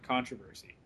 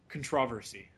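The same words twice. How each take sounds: First: The word is said in the speaker's plain accent. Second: The word is said in a British accent.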